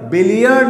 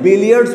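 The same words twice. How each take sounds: First: बिलियर्ड ending on D, without the S; no final S. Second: बिलियर्ड्स ending in a DS cluster; final S sounded. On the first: Teacher showing students the form not used, बिलियर्ड without final S. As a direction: drop the final S sound from बिलियर्ड. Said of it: "बिलियर्ड नहीं बोलते हैं". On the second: Teacher showing students the correct game name, बिलियर्ड्स with final S. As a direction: keep the S on the end of बिलियर्ड्स. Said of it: "बिलियर्ड्स बोलते हैं". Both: Shown as a demonstration.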